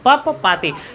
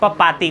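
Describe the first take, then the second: First: The name is said in a careful, full form. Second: The name is said in a simpler, smoother form. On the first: This is the pure, formal reading. "अगर कोई शुद्ध में पढ़ेगा तो इसको पढ़ सकता है" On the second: This is the everyday reading. "लेकिन चलो हम लोग पढ़ेंगे पपाती"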